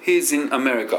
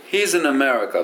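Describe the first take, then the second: First: He's in America cut apart word by word; choppy wrong. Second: He's in America run together, "hi-zi-na-merica"; linked smooth. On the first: Teacher showing students the choppy way to avoid. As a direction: stop hard between He's, in and America. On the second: Teacher modelling the linked version for students. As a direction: glide He's in America smoothly into one line. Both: Shown as a demonstration. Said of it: "こんなに切っちゃダメですよ".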